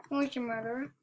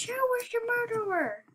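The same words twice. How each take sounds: First: Said in the usual way. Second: High, falling, triumphant question; excited crowing. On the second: Real, not acted. Triumphant after murderer falls.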